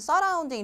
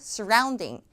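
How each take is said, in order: First: The first vowel is a full, clear sound. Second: The first vowel is weak and reduced. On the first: The speaker calls it wrong. "항상 제가 들어보면 surrounding 이렇게 하는데 써가 아니라" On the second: The speaker calls it right. "약화돼서 쓰 소리가 나겠죠?"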